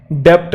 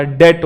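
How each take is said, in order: First: डेप्ट with the b sounded as p; wrong pronunciation. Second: डेट with silent b; right pronunciation. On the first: Teacher showing the wrong form डेप्ट with the consonant sounded. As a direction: say डेप्ट, pronouncing the middle consonant. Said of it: "नहीं होता". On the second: Teacher giving the correct form डेट with silent b. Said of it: "होता है". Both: Shown as a demonstration.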